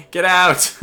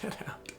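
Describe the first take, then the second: First: Loud, high-pitched yell; shouted retreat order. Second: Very soft, voiceless "get out"; hushed retreat order. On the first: Player to outmatched cruisers, shouted order to flee. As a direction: yell it suddenly at full volume. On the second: Player to outmatched cruisers, hushed order. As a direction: barely voice it, almost no sound. First take, amid laughter. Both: Pretend.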